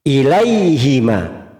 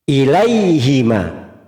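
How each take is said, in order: First: The vowel after the h is 'ee'. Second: The same.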